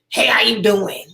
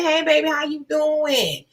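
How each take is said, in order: First: The voice is tough and masculine. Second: The voice is soft and gentle.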